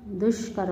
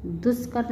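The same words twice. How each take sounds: First: Said in the usual way. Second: दुष्कर with s for sh; mispronounced. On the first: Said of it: "होता है". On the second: Shown as a demonstration. Teacher showing students an error, दुष्कर mispronounced "duskar". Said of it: "नहीं होता".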